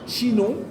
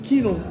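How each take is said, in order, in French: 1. La première consonne est un son sh doux. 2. La première consonne est un son k dur. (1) "le che, comme chinon" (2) "le C H se prononçait que"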